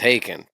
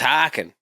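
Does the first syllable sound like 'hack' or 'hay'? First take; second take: hay; hack. First: The first vowel sounds like 'hay'. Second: The first vowel sounds like 'hack'. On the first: "I know it's haken" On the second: "the Canadian me goes"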